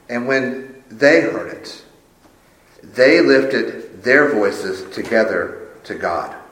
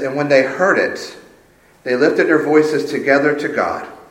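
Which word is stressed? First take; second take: together; none. First: The word together is emphasized. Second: It is read plainly without special emphasis.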